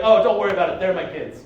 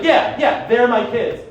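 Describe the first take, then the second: First: Breezy low-key reassurance without missing a beat; casual, instant cover. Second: Louder, defiant doubling down; mildly indignant insistence. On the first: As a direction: toss it off low, like it's nothing. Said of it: "Without missing a beat". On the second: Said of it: "I got a little indignant". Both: Retold or imitated.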